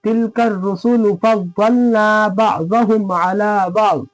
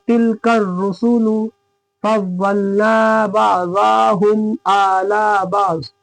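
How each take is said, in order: First: Slow chant with a quick short za in बअज़हुम; correct measured recitation. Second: Slow chant stretching the short vowel in बअज़ाहुम to a long aa; wrongly drawn-out recitation. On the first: Teacher showing students the right reading, बअज़हुम with short vowels. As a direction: recite slowly, keeping बअज़हुम short as ba'zahum. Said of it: "तो इसको किस तरह पढ़ेंगे?". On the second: Teacher showing students a faulty reading, बअज़ाहुम slowly over-stretched. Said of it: "ये गलत हो गया". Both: Shown as a demonstration.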